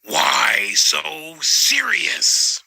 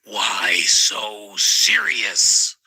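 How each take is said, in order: First: Joker imitation, louder take. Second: Slow drawn-out Joker line; Joker imitation. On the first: Teachers quoted in slow menacing Joker voice, pitched up. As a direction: stretch it out like the Joker again, lifted. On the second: Teachers quoted in slow menacing Joker voice. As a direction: stretch it out like the Joker. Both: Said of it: "they'd say".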